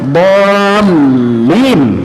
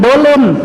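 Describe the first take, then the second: First: The l sound is held and doubled. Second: The l sound is short and single. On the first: The speaker calls it right. "Itu lamnya ditasydid" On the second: The speaker calls it wrong. "Bukan dolin"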